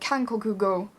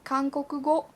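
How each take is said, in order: First: The k sounds have strong puffs of air. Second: The k sounds have almost no puff of air. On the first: The speaker calls it wrong. "If you aspirate it too much" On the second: The speaker calls it right. "That's a lot easier for me now"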